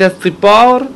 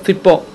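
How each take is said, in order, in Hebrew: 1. צליל ה-ts כפול, נאמר ארוך יותר. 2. צליל ה-ts יחיד וקצר. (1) "במקום להגיד את הסיפור" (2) "הוא לא אמר את המילה כמו שצריך להגיד אותה"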